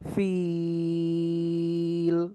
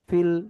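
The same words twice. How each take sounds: First: The vowel is stretched out long. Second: The vowel is short, not stretched. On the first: "তিন আলিফ টানবো" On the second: "টানের নিয়মটা না থাকতো, তাহলে আমরা শুধু এরকম পড়তাম"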